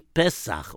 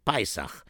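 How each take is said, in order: First: It is said with the standard Hebrew pronunciation. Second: It is said with a Hasidic pronunciation. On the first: "but it's really Pesach"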